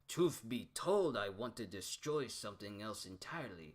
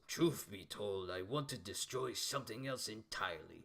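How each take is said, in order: First: It is read in the speaker's ordinary voice. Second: It is read in a put-on character voice.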